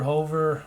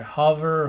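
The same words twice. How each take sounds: First: "hover" with a long o, as in "over"; long-o pronunciation. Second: "hover" with a short, open first vowel, like "cover"; short-vowel pronunciation. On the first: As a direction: say "hover" as HOH-ver. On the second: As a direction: say "hover" as HUV-er. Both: Shown as a demonstration. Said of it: "think of how it's pronounced".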